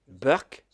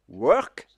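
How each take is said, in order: First: It begins with a B sound, Indian-style. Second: It begins with a W sound.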